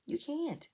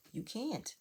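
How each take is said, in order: First: Exasperated higher repeat. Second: Said in the usual way. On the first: Real, not acted. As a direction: pitch it up in disbelief on "You can't.". Scolding Tiffany, repeating herself.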